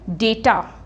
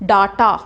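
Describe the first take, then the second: First: The first vowel sounds like 'ay'. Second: The first vowel sounds like 'ah'. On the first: The speaker calls it right. "इसकी correct pronunciation क्या है?" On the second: The speaker calls it wrong. "इसको आप बोलते हैं डाटा"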